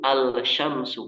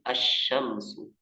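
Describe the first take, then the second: First: The L sound is clearly pronounced before sh. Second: The L sound merges into the following sh. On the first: The speaker calls it wrong. "Al-syamsu enggak" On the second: The speaker calls it right. "tapi asyamsu"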